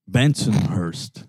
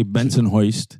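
First: Said in the usual way. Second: Bensonhurst said as "Benson-hoist"; local pronunciation. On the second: Shown as a demonstration. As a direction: turn the "hurst" of Bensonhurst into "hoist". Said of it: "or as they say".

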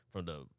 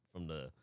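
No difference in how they are said.

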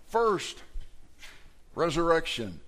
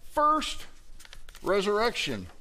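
First: Preacher lands hard on "first", pause, then resurrection; stress on first. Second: "first" squeaked very high in mock disbelief, resurrection trailing; questioning first. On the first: Real, not acted. Preacher to congregation, stressing first. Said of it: "This is the first resurrection". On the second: Preacher mimicking a congregant's disbelieving question. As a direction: ask "first resurrection?" as a baffled listener would. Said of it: "And you say".

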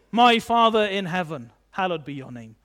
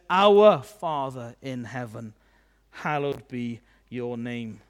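First: My leads louder, the rest drops away quickly; stress on My. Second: Our stretched out, then slow and low; stress on Our. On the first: Showing what Jesus didn't teach, stress on "My". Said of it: "He doesn't say". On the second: Teaching how Jesus said to pray, slow stress on "Our". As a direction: draw out "Our" with weight, then slow, reverent descent. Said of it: "He says". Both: Shown as a demonstration.

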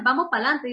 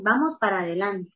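First: "pa'lante" said as one clipped word; casual pa'lante. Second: "vamos para adelante" with every syllable clear; careful diction. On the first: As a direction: swallow the "para" into "pa'lante". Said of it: "Yo lo puedo decir igual". (pronunciación relajada, "pa'lante" en una sola palabra) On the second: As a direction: say "para adelante" in full, nothing dropped. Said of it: "una buena dicción es la forma correcta". (dicción cuidada, "para adelante" completo) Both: Shown as a demonstration.

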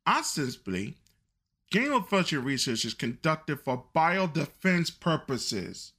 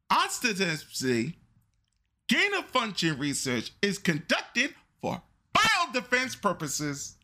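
First: Said in the usual way. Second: Dictating. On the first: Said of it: "Let me repeat it again so everybody can hear". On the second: Shown as a demonstration. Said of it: "Write it down".

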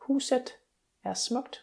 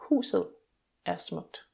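First: "Huset" ending in a crisp, clear T; Jutland clear T. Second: "Huset" ending in a soft Danish D; Zealand soft D. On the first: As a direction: say "Huset" with the final T fully sounded. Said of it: "would pronounce the ending E T with a clear T". (udtal "Huset" med tydeligt t, som i Jylland) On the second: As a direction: let the end of "Huset" melt into a soft D, no T. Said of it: "would make the whole ending a soft D sound". (udtal "Huset" med blødt d, som på Sjælland) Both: Shown as a demonstration.

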